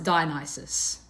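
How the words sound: The name is said with an English pronunciation. "I would pronounce it"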